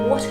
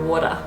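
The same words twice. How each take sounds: First: It is said in a British accent. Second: It is said in an Australian accent. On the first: "Brits say water" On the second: "Australians go water"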